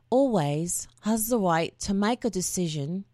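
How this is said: It is read in a put-on Cockney accent.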